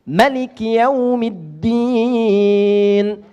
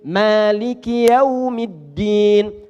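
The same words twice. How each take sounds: First: The first vowel of Maliki is short. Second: The first vowel of Maliki is long. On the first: "membaca dengan pendek" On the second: "Hafaz, hafaz dari Asim"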